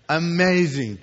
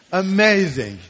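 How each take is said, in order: First: Laughing. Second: A loud, ringing "Amazing." full of wonder; excited exclamation. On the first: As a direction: chuckle as you repeat "Amazing.". Repeats it, laughing. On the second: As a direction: burst out "Amazing." in delight. Exclaims about the amazing book. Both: Real, not acted.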